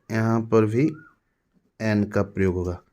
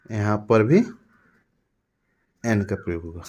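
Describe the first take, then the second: No difference in how they are said.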